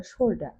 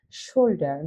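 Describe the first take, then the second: First: শোল্ডার the British way, final R dropped; British pronunciation. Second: Said in the usual way. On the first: Shown as a demonstration. Teacher showing learners how the British say it, শোল্ডার with silent final R. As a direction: say শোল্ডার ending in an open "da", no R. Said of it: "ব্রিটিশরা উচ্চারণ করে". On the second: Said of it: "কিন্তু ব্রিটিশরা উচ্চারণ করে".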